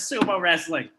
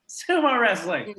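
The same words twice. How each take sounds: First: Said in the usual way. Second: "Sumo wrestling" repeated slowly with a rising tune; savoring repeat. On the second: Shown as a demonstration. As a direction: drag out "Sumo wrestling" slowly, letting the pitch rise at the end.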